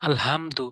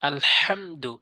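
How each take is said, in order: First: The h sound is soft and light. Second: The h sound is strong and pressed. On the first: The speaker calls it wrong. "এভাবে সহজ করে বলে দেয়।" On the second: The speaker calls it right. "চাপ দিয়ে ভর দিয়ে উচ্চারণ করতে হবে"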